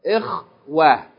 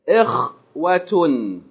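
First: The word is cut short without the final syllable. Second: The word ends with a full final syllable. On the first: The speaker stops on this word. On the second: The word continues into the rest of the speech.

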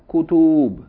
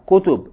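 First: The vowels are drawn out long. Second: The vowels are kept short. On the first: The speaker calls it wrong. "not kutub" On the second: The speaker calls it right. "Short vowels"

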